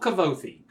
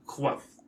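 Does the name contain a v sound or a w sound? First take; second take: v; w. First: The name is said with a v sound. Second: The name is said with a w sound. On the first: The speaker calls it wrong. "I spent a good long time saying" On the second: The speaker calls it right. "but his name is Quoth"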